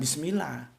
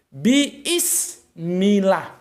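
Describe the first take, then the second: First: The first vowel is short and quick. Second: The first vowel is drawn out long. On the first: "bukan bismillah" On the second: "yang benar itu biismillah"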